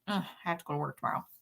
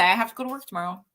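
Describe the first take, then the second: First: It sounds full of dread and misery. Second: It sounds calm and unbothered.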